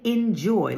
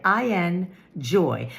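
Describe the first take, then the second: First: Said in the usual way. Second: "I N joy" said slowly as separate parts, I, then N, then joy; "I N joy" broken into three slow pieces to show the word in joy; spelled-out enjoy. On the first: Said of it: "like I N joy". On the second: Shown as a demonstration. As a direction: split "I N joy" apart, slow and deliberate, each part on its own. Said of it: "and I mean enjoy".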